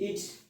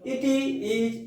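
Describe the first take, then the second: First: It is said as one contracted word. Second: It is said as two separate words.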